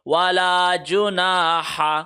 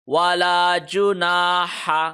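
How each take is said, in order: The two takes are said the same way.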